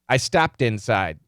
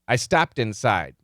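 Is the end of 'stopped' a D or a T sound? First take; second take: D; D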